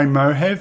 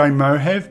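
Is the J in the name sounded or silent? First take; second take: silent; silent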